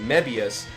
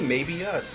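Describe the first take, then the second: First: The name is said as one smooth word. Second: The name sounds like the phrase 'maybe us'. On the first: The speaker calls it right. "other people were pronouncing it Mebius, ... you guys got it right" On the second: The speaker calls it wrong. "Like who went to the movie? Maybe us"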